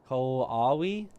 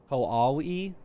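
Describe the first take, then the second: No difference in how they are said.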